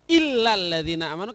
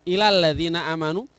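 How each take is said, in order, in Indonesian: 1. Bunyi L pada kata pertama itu ganda. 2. Bunyi L pada kata pertama itu pendek. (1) "illa harus dibaca illa" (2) "tidak boleh dibaca ila, tidak ada tasdidnya"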